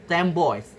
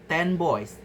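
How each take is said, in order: First: Ten ends in an m sound before boys. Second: Ten ends in a clear n sound.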